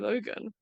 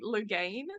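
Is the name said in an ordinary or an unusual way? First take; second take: ordinary; unusual. First: The name is said in the ordinary way. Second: The name is said in an unusual way. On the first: This is how the show says it. "They do just say Logan" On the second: This is how the speaker imagined the show says it. "do they say it like Logain?"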